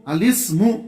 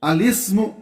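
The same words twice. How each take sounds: No difference in how they are said.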